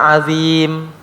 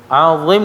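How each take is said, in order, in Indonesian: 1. Huruf pertama itu tipis, dengan lidah rendah. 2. Huruf pertama itu tebal, dengan lidah terangkat.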